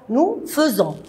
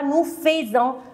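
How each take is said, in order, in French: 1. La première syllabe de faisons se prononce feu. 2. La première syllabe de faisons se prononce fay. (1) "F A I, je prononce feu" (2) "On ne dit pas"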